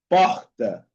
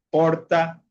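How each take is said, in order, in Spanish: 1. La r suena como un sonido gutural y aspirado, parecido a una h. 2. La r suena como una r ligera, de un solo toque. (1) "ellos pronuncian de como un J en español" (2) "algunas regiones la pronuncian como la R normal"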